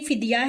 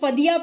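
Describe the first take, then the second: First: The first syllable has an 'i' vowel. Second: The first syllable has an 'a' vowel. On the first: The speaker calls it right. "जो उर्दू में सही pronunciation है इसकी फिदिया है" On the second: The speaker calls it wrong. "कुछ लोग इसको फदिया पढ़ते हैं"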